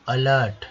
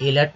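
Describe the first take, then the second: First: अलर्ट starting with short "uh"; अलर्ट with schwa, not "ay"; correct pronunciation. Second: एलर्ट starting with "ay"; wrong pronunciation. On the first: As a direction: land firmly on अलर्ट as "uh-LART". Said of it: "अलर्ट, एलर्ट नहीं". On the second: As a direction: say एलर्ट like "A-lert". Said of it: "एलर्ट नहीं". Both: Shown as a demonstration.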